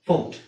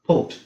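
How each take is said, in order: The two takes are said the same way.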